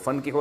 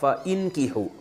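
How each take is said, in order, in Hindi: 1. Fa सीधे अगले अक्षर में जुड़ जाता है। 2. 'fa' के बाद एक अलग स्वर सुनाई देता है। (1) "फ़न की हो मिला के पढ़ा जाता है" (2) "असल में था फ़इन की हो"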